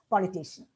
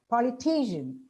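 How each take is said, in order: First: The syllable 'ti' carries no clear stress. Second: The syllable 'ti' carries clear stress. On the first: The speaker calls it wrong. "we tend to pronounce it as" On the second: The speaker calls it right. "these words are to be pronounced as"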